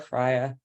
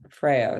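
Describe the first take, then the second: First: The name is pronounced the Danish way. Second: The name is pronounced the Swedish way. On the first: The speaker calls it right. "it's pronounced the Danish way" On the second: The speaker calls it wrong. "That's the Swedish way"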